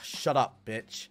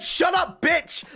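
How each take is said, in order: First: It is muttered quietly under the breath. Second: It is shouted out loudly. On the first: The insult was meant to go unheard. "Like, under his breath" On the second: The insult was openly defiant. "Like, he shouted it"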